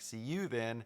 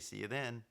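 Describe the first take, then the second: First: The intonation sounds stiff and scripted. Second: The intonation sounds relaxed and conversational. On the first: The speaker calls it wrong. "she said it wrong. She said something like" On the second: The speaker calls it right. "have you never heard anybody say"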